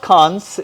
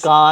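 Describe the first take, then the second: First: The word ends with a clear s sound. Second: The word ends without any s sound. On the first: The speaker calls it wrong. "It's not कांस" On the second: The speaker calls it right. "It's कान"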